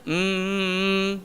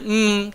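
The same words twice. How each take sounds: First: The nasal m sound is held long. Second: The nasal m sound is short. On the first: The speaker calls it right. "dia ada panjang dengung tersebut" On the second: The speaker calls it wrong. "Dia dia bukan setakat ada mm tu"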